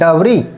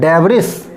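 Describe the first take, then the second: First: The final s is silent. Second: The final s is pronounced. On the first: The speaker calls it right. "अब हमें right पढ़ना है" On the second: The speaker calls it wrong. "अगर हम रंग पढ़ना है"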